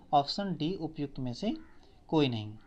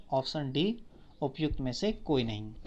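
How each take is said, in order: The two takes are said the same way.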